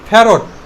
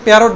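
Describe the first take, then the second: First: The first consonant is a breathy, aspirated p. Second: The first consonant is a plain p. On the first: The speaker calls it right. "ফ্যারট না বলে কি বলবো? ফ্যারট। Only ফ্যারট।" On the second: The speaker calls it wrong. "আমরা এটাকে প্যারট বলবো না"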